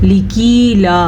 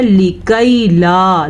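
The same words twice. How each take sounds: First: लिकीला said with a long ee, the common mistake; wrong reading. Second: लिकै ला with a short ai vowel, slow and clear; slow correct tajweed लिकै ला; correct reading. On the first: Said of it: "अक्सर लोग इसको पढ़ते हैं". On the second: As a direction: say लिकै ला correctly, lam not stretched. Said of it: "जबकि ये है". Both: Shown as a demonstration.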